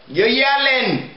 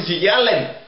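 First: Yelling drawn out and slowed, pitched up; stressed yelling. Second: Said in the usual way. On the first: Acted. Man tells the headphone guy again, leaning hard on yelling. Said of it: "'cause you're yelling".

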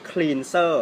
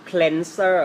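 First: Cleanser as "KLEEN-ser"; wrong pronunciation. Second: Cleanser as "KLEN-ser", very slow; correct pronunciation. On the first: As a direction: say cleanser slowly with a long EE. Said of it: "ไม่ใช่". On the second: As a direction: give cleanser a short E, stretched out for learners. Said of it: "เขาจะเรียกว่า". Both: Shown as a demonstration.

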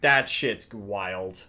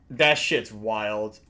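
Both takes have the same delivery.

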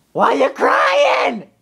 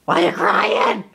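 First: Much higher, slow, crying-shout whine; high slow mock crying whine; mock wailing. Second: Said in the usual way. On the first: Real, not acted. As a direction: wail it back at the dog. High wailing repeat to the dog.

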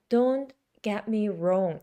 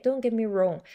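First: Slow, word-by-word demonstration; measured, careful teaching pace; slow pronunciation. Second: Quick, linked-up delivery; rapid but accurate phrase; fast pronunciation. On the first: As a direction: spell it out slowly for beginners. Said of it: "천천히 발음하고". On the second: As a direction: run the words together fluently. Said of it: "빨리 얘기해도 정확한 발음이 나와요". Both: Shown as a demonstration.

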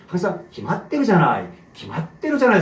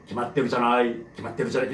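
First: Said in the usual way. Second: 기맛대로잖아요 mumbled lower and much softer, fading out; mumbled wrong take. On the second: Shown as a demonstration. Teacher demoing a mumbled 기맛대로잖아요 to avoid. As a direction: swallow 기맛대로잖아요 to show what not to do. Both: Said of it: "이렇게 하면 안 돼".

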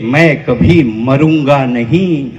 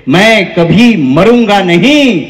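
First: Low, slow recited line; low-pitched, measured verse; verse recitation. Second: Slow, ringing verse line; drawn-out, emphatic declamation; emphatic recitation. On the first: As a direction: recite slowly in a lower voice. Verse line, first take. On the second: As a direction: declaim it slowly with force. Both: Real, not acted.

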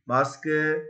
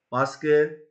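The two takes are said the same way.

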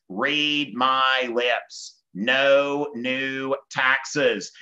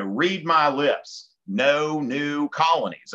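First: Very slow, drawn-out politician's pledge; Bush convention pledge. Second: Slow, lightly emphatic presidential pledge; Monroe in own accent. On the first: Bush to convention to excite conservatives, very slow emphatic pledge. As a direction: spell it out word by word for a crowd. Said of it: "he says". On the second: Teacher voicing Monroe's doctrine as a slogan, slow own-accent pledge. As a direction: mimic the famous pledge in your own accent, less drawn out. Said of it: "I can say that in my own accent". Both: Acted.

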